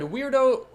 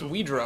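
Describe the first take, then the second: First: The name sounds like the word 'weirdo'. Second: The name sounds like 'wee' plus 'droh'. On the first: The speaker calls it wrong. "no, it's not Weirdo" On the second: The speaker calls it right. "it's Weedro"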